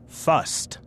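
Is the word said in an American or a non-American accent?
non-American. The word is said with a non-American accent. The speaker is talking in their own usual way. "instead of first"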